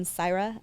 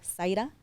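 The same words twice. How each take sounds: First: "Zaira" said the English way, with an English R; "Zaira" in plain American English sounds; English pronunciation. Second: "Zaira" said the Spanish way, with a tapped R; "Zaira" in native Spanish sounds; Spanish pronunciation. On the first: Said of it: "Instead of saying Zaira". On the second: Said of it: "I'll say my name in Spanish". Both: Shown as a demonstration.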